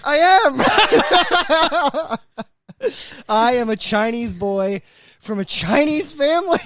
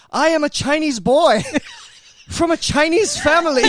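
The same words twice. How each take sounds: First: High, loud quote broken by laughter; laughing retelling. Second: First take, high and loud through laughter; laughing as he quotes it. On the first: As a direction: retell it cracking up. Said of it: "and he goes". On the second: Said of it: "And he goes". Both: Retold or imitated.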